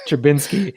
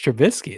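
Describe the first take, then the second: First: The name has an n sound before the s. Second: The name has no n sound before the s. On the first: The speaker sounds like someone from Chicago. "sorry, Trubinsky" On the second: The speaker is not from Chicago. "you don't say Trubinsky"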